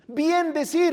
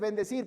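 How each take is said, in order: First: It is said as two separate words. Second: It is said as one joined word. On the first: The speaker calls it wrong. "no se dice bien decir" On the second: The speaker calls it right. "se dice bendecir"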